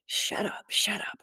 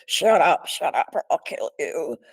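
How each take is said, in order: First: Harsh whispered shut up, then voiced on kill; imitated whispered threat. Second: Loud snapped shut up, then rougher voice; imitated barked threat. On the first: Intruder threatening the woman in bed, harsh whisper. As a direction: hiss the threat under the breath, menacing. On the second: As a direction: bark the order at her, menacing. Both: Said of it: "And it was really like".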